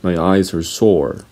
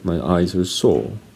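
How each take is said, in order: First: The final R in sore is pronounced. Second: The final R in sore is silent. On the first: "Americans would say" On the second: "That's what British people say"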